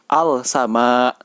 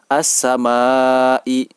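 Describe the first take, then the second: First: The article's L sound is clearly pronounced. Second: The L merges into a doubled S sound. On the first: The speaker calls it wrong. "tidak boleh dibaca" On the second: The speaker calls it right. "Yang benar adalah"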